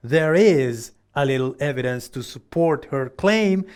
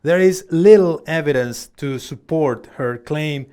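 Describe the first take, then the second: First: Is pushed out clearly as the key word; a model sentence with the verb is stressed. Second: Little pressed hard and loud, the rest even; a model sentence with little punched; stress on little. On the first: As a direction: put all the weight on the verb is. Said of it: "acá el énfasis va a estar en is". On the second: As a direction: lean the whole voice into little. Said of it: "Fíjate dónde fue a dar el énfasis o el stress". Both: Shown as a demonstration.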